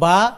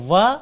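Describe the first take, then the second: First: The syllable begins with a b sound. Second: The syllable begins with a w sound. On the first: The speaker calls it wrong. "বয়ে রূপান্তরিত করে দেয়" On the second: The speaker calls it right. "এই উচ্চারণগত পার্থক্য হলো ওয়া"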